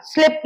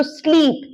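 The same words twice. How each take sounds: First: स्लिप with a short clipped i; स्लिप, the wrong short vowel; short i in slip. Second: स्लीप with the ee drawn out long; स्लीप said slowly, vowel held; long ee in sleep. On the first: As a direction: demo of the mistaken short स्लिप. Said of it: "स्लिप नहीं". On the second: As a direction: stretch the ईप in स्लीप. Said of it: "थोड़ा सा ईप को खींचिएगा". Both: Shown as a demonstration.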